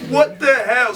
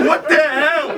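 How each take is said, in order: First: Louder, shouting the words; shouted disbelief. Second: Higher and louder, laughing through the words; laughing disbelief. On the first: Repeated outburst, shouted. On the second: Baffled outburst after laugh. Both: Real, not acted.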